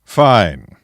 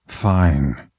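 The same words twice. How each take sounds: First: Curt falling word, mild irritation held in; tamped-down anger. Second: Grudging, falling, mild reluctance; reluctant admission. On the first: Knight giving up a line of questioning, restrained anger. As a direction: concede with anger kept in check. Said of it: "effort to keep his anger tamped down". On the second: Villain pressed to confess a hobby, mildly reluctant. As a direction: give in with little force. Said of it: "a bit nervously". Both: A narrator's reading.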